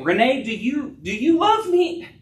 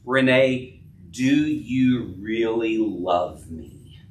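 First: Much higher, pressing question; husband pressing his wife, pitched high and urgent; pleading question. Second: Slow and lower, weighing every word; husband asking again, slow and searching; serious, searching question. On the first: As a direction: press her for an answer, rising high. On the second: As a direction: ask it slowly so she has to think. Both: Acted. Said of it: "That's what Jesus was doing".

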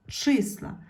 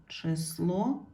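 First: Числа with a high stressed И; stress on first syllable. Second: Число rising on a stressed final О; stress on last syllable. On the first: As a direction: hit the И in числа. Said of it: "стало наголошеною". (наголос на И у слові числа) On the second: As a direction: lean on the О in число. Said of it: "треба змінити слово так". (наголос на О в кінці слова число) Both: Shown as a demonstration.

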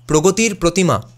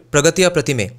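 First: "Progotir Protima" with rounded o vowels; Bengali pronunciation. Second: Said in the usual way. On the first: Shown as a demonstration. Showing what Bengalis would call the statue, Bengali pronunciation of "Progotir Protima". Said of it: "We would call it". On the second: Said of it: "which in Bengali we would".

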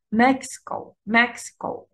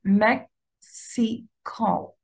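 First: مكسيكو as one word, MEX-i-co; مكسيكو joined up, strong at the start; first-syllable stress. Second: مكسيكو slowly as mek, si, ko with gaps; three drawn-out isolated syllables; split into syllables. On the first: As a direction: hit "Mex" and let the rest go quickly. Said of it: "الاسترس على المقطع الأول". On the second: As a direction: sound out each syllable separately. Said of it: "نفس الشيء". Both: Shown as a demonstration.

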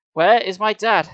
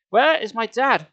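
First: Higher and louder, pushing harder; girl repeats her demand, louder and higher; shrill repeat. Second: Higher, louder demand; girl confronts the doctor, loud and high. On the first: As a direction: repeat it more urgently. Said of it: "Sari repeated shrilly". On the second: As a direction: insist on an answer. Girl demands her father. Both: A narrator's reading.

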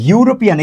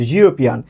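First: Said in the usual way. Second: ইউরোপিয়ান opening like soft "zhu"; soft z-like onset. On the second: Shown as a demonstration. Teacher answers his own question, ইউরোপিয়ান with z-like onset. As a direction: start ইউরোপিয়ান on a buzzed consonant, not a vowel. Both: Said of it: "আবার সেই জের মতো".

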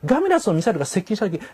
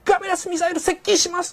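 First: Said in the usual way. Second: High, crisp shouted missile report; mock anime alert. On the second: Shown as a demonstration. Parodying an anime officer's crisp missile alert. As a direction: bark it out like an anime bridge officer. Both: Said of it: "パッと言えるんではなくて".

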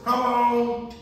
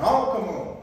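First: Higher, louder wife's voice; Carol's voice. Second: Said in the usual way. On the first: Retold or imitated. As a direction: imitate Carol calling out. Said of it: "Oh, in my Carol voice". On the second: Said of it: "in my Carol voice".

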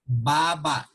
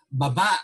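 First: Baba as BA-ba, first syllable long and falling; stress on first syllable. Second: Baba as ba-BA, quick first syllable, stressed ending; stress on second syllable. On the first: Teacher giving the word for chin, baba stressed on first syllable. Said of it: "The stress of the word or syllables". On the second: Teacher giving the word for going down, baba stressed on second syllable. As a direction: put the weight on the last BA of baba. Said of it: "meaning you're going down". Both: Shown as a demonstration.

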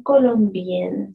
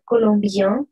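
First: "colombienne" said slowly, ending on a clear n sound; feminine form, slow. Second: "colombien" ending in a nasal vowel with no n sound; masculine form. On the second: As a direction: say "colombien" as kolombjɛ̃, with the n left silent. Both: Shown as a demonstration. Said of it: "Atención con la pronunciación".

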